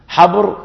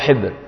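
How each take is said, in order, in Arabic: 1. الحركة الأولى هي صوت 'a' مفتوح. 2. الحركة الأولى هي صوت 'i' أمامي. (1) "يجوز الفتح" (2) "ويجوز الكسر"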